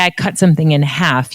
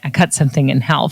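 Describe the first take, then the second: First: The L in half is silent. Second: The L in half is pronounced. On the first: The speaker calls it right. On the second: The speaker calls it wrong. "You don't say"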